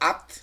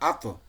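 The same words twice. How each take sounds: First: The final t stops flat without an echo. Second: The final t is released with a slight echo. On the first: The speaker calls it wrong. "আত না" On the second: The speaker calls it right. "ইকো হবে একটু"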